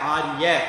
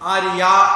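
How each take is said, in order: First: The final vowel is cut short. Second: The final vowel is drawn out long. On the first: "குறிலா சொல்லலாம்" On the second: "அப்படின்னு கூப்பிடல"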